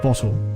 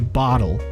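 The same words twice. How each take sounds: First: The middle sound is a crisp clear t. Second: The middle sound is a soft d-like flap. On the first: This is how British speakers say it. "instead of bottle" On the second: This is how Americans say it. "you guys are the ones who say bottle"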